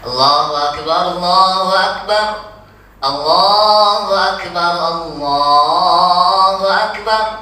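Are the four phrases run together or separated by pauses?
separated. The phrases are separated by pauses between them. The speaker calls it right. "ucapan takbir yang yang biasa kita dengar"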